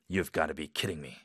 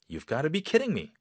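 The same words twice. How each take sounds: First: It sounds angry and betrayed. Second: It sounds amazed and disbelieving.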